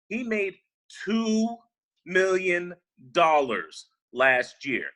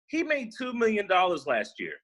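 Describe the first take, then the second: First: It is said slowly. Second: It is said at a normal pace.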